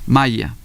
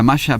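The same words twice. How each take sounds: First: The middle consonant is a clear y sound. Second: The middle consonant has the usual local sound. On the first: It refers to the Maya culture. "deberíamos decirlo maya, porque es una Y" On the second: It names the beach garment. "es con esa sonoridad"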